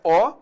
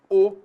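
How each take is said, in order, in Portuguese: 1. A vogal é pronunciada com timbre aberto. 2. A vogal é pronunciada com timbre fechado. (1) "nós temos aqui o timbre aberto" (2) "e o timbre fechado"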